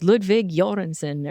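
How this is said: The name is pronounced with native Swedish-style sounds. "more technically like"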